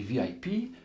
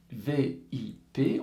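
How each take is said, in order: First: Said in the usual way. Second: "V I P" slowly as French letters, vé, i, pé; spelt letter by letter. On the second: Shown as a demonstration. Teacher explaining the formula, "V I P" as separate French letters. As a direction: spell out "V I P" with a pause after each letter.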